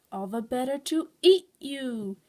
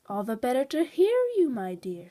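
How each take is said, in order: First: Slow, loud menacing wolf; drawn-out, forceful villain threat; snapped. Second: Cheery wolf playing sweet grandmother; cheerful. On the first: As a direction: drop the sweet act and snap greedily. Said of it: "he snapped". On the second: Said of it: "in a cheerful voice". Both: A narrator's reading.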